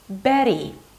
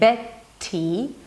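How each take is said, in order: First: The middle T is a light voiced flap. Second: The middle T is a crisp stopped T. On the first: The speaker calls it right. "I say Betty" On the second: The speaker calls it wrong. "instead of saying Betty"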